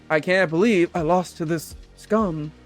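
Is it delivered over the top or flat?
flat. It is delivered flat and normal.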